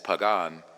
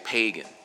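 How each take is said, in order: First: It is pronounced in a Latin-style way. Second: It is pronounced in an English-style way. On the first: The speaker calls it right. "it's pagan in uh, in Roman" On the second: The speaker calls it wrong. "In English, they say pagan, right? So it's actually mispronounced"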